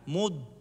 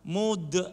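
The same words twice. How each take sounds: First: The final consonant is held without release. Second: The final consonant is released with a bounce. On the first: The speaker calls it right. "lidah ditarik ke belakang, kemudian gigi dikatupkan" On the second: The speaker calls it wrong. "Kalau dilepas nanti bisa kol-kolah"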